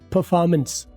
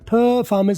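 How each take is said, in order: First: The first syllable's 'er' is reduced to silence. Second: The first syllable's 'er' is clearly sounded. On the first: The speaker calls it right. "इसमें ई आर की आवाज silent हो" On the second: The speaker calls it wrong. "परफॉर्मेंस मैं नहीं बोलूंगा"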